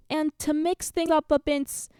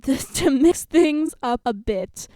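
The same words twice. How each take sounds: First: Coach announcing. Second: Very slow, loud retake; coach announcing. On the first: Coach shaking up the teams, slow announcing voice that fluffs the last word. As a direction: stumble on BIT in the announcement. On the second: Coach redoing the fluffed line, slow, loud and careful. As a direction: enunciate each word deliberately in coach voice. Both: A narrator's reading.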